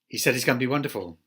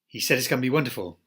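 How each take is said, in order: First: Words are squeezed together into very reduced sounds. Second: The same.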